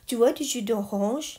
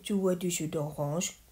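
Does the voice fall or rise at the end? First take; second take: rise; fall. First: The pitch rises high at the end. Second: The pitch stays level or falls at the end. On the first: It is a question. "ดังนั้นเราขึ้นเสียงสูง" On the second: It is a statement. "ประโยคบอกเล่าก็คือ"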